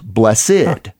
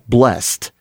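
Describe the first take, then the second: First: The word is said as two syllables. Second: The word is said as one syllable. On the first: The word is used as an adjective or noun. "it is two syllables" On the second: The word is used as a verb. "it is pronounced as one syllable"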